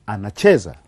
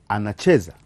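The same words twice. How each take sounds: The two takes are said the same way.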